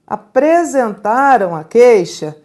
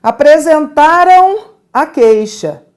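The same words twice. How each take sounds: First: Said in the usual way. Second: Apresentaram stressed, slow and louder; example sentence, emphasized. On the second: Shown as a demonstration. Teacher presents the example sentence to the class. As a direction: lean on Apresentaram slowly. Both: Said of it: "Vejam aqui".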